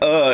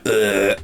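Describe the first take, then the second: First: It is said in a normal voice. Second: It is said in a zombie-like groan.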